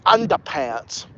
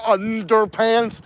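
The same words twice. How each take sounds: First: "underpants" as "undapants", R dropped; New England "undapants" with no R; northern accent. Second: Said in the usual way. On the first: Shown as a demonstration. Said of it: "then they'll say underpants". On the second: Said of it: "instead of underpants".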